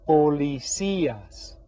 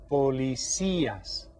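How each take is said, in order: First: "policías" slow, with the Í leaned on; "policías" with stress on the í. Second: "Policías" slow and soft, Í stressed; "Policías" drawn out, accented i stressed. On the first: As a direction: stretch "policías", hitting the accented Í. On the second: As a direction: model "Policías" gently with stress on Í. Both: Shown as a demonstration. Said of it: "you hear that stress on that accented I".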